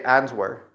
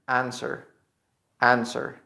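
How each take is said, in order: First: "answer" as AN-swer, W pronounced; incorrect sounded W. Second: "answer" as AN-ser, no w; correct silent W. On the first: Teacher shows the mistake, "answer" with sounded W. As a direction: put an audible w into "answer". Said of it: "It's not correct to say". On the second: Teacher gives the correct form, "answer" with silent W. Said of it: "The correct is". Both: Shown as a demonstration.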